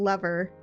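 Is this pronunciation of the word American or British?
American. It is said with an American pronunciation. "like an actual lever"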